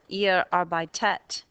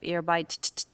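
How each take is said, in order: First: An extra vowel is said before the final t. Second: No vowel is said before the final t. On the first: The speaker calls it right. "Add a linking E" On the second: The speaker calls it wrong. "So these are wrong"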